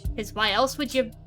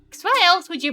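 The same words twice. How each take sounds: First: It is said in the speaker's ordinary accent. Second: It is said in a put-on Southern accent.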